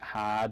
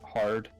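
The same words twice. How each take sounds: First: The r sound after the vowel is dropped. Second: The r sound after the vowel is pronounced.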